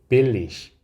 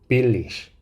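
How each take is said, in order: Both takes have the same delivery.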